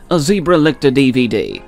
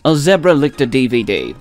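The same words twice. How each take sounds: First: Zebra is said with an American pronunciation. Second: Zebra is said with a British pronunciation. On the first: The speaker calls it wrong. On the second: The speaker calls it right.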